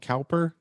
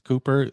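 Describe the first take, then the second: First: The first vowel sounds like 'cow'. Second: The first vowel sounds like 'coo'. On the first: The speaker calls it wrong. "I keep wanting to call him Cowper" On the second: The speaker calls it right. "but it's Cooper, the British pronunciation"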